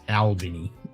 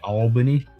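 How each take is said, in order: First: It is said with an Australian pronunciation. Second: It is said with an American pronunciation. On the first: This is how locals of the home town say it. "but it's Albany" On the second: This is how the other person's country says it. "you say Albany"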